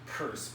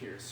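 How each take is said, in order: First: The name rhymes with the word purse. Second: The name rhymes with the word fierce. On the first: This is how the family member herself said it. "She pronounced it Purse" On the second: This is how the speaker prefers to say it. "I'm going to call her Nellie Pierce"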